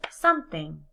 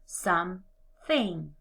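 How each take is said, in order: First: Said in the usual way. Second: Slow, split "Something" into two beats; syllables pulled apart. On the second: Shown as a demonstration. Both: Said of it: "blend the two syllables together".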